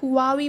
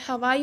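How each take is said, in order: First: It sounds like 'hoo-ah-vee'. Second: It sounds like 'ha-wai'. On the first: "लोग इसको हुआवी बोलते हैं" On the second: "हवाई बोलते हैं"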